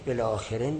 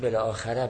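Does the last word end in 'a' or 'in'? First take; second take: in; a. First: The last word ends with an 'in' sound. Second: The last word ends with an 'a' sound. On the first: "دومی مکسور بخونیمش" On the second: "یا مفتوح بخونیم"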